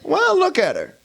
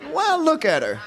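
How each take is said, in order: First: High, loud protest: "Well, look at her"; indignant kid. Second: High protest: "Well, look at her" called out higher; indignant kid. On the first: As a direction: defend yourself like a cheeky child. Kid defends insult, loud. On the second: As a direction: protest again like a cheeky child. Same protest repeated. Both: Acted.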